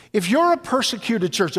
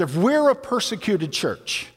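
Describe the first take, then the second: First: You're leaned on, pointing at the listeners; stress on you're. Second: We're leaned on, correcting to include us all; stress on we're. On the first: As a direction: put the weight on you're. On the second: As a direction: put the weight on we're, taking it back to us. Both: Shown as a demonstration.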